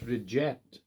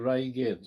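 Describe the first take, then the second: First: The second syllable sounds like 'ject'. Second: The second syllable sounds like 'gate'. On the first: This is how the name was originally said. The speaker calls it right. "it's Reject. That was what the original uh, pronunciation was" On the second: This is how the name is said now. The speaker calls it wrong. "Now you said Reigate, right? Well, that's wrong"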